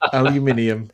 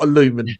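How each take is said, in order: First: The word is said with five syllables. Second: The word is said with four syllables. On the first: The speaker calls it right. "aluminium is the correct pronunciation" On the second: The speaker calls it wrong. "not aluminum"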